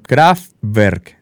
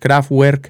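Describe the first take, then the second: First: The W is sounded like an English v. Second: The W is sounded like an English w. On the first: The speaker calls it right. "sino Kraftwerk, algo así" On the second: The speaker calls it wrong. "creo que la W no es Kraftwerk"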